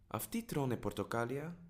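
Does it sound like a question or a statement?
question. It has the tune of a yes-no question. It asks whether they are eating oranges. "Are they eating oranges?"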